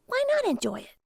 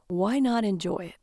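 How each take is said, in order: First: Much higher, playful character voice. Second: Said in the usual way. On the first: Acted. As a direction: lift it way up, light and teasing. Lily's line, voiced high. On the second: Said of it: "[name] repeated her".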